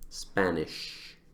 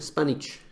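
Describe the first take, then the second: First: The middle consonant sounds like 'sh'. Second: The middle consonant sounds like 'ch'. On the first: The speaker calls it right. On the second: The speaker calls it wrong.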